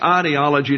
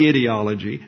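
First: The first vowel is a long 'eye' sound. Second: The first vowel is a short 'ih' sound. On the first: The speaker calls it right. "it's ideology" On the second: The speaker calls it wrong. "not ideology. No dictionary has ideology as a pronunciation"

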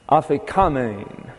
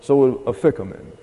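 First: The stress is on the next-to-last syllable. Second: The stress is on the second syllable. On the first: This is the original Greek pronunciation. "the accent here is on the penultimate" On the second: This is the usual English habit. "in English we usually accent the second syllable"

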